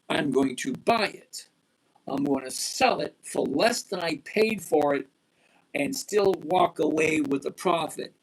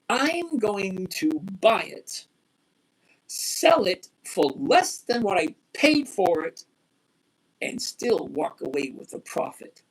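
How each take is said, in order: First: It is said at a faster pace. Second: It is said at a slower pace.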